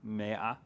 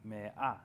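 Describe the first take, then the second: First: A light catch comes before a soft 'ah'. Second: A longer break comes before a firmer 'ah'. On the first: "you can you almost detect the apostrophe there?" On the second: "the pause would be a little longer, and you would hit the ah sound a little firmer"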